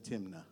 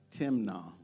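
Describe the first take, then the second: First: The name is said with an English pronunciation. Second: The name is said with a Hebrew pronunciation. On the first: "I would have said Timnah" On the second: "That's the Hebrew way to pronounce it"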